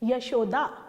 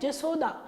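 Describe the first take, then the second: First: The name begins with a y sound. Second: The name begins with a j sound. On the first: The speaker calls it right. "जा की जगह हमको या बोलना था" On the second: The speaker calls it wrong. "तो गलत है"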